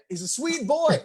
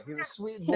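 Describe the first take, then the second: First: Said in the usual way. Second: Put-on breathy whisper of He's a sweet boy; whispered He's a sweet boy, higher; whispered repeat. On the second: Shown as a demonstration. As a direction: drop to a hushed whisper on the repeat.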